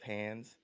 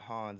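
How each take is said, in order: First: The name sounds like the word 'hands'. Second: The name is said like 'hahns'. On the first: The speaker calls it wrong. "instead of Hands" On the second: The speaker calls it right. "how to pronounce it Hans"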